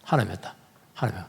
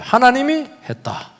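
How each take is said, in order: First: 하나님이 했다 lower and much softer; 낮게 조용히 되뇌듯; soft echo. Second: 하나님이 raised and stressed, falling at the end; 하나님이 높게 강조하고 끝을 내리기. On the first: (조용히 되풀이) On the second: (하나님이를 힘주어) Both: Shown as a demonstration. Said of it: "이걸 알아야 돼요".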